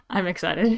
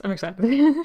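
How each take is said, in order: First: Said in the usual way. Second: A bright upward lift on "excited". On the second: Shown as a demonstration. Streamer showing how excited she is, eager lift. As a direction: sell "excited" with a rising, eager tone. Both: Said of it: "I'm like, I'm excited".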